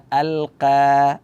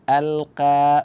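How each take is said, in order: The two takes are said the same way.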